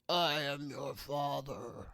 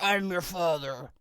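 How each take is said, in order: First: It is said in a Darth Vader voice. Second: It is said in a normal voice.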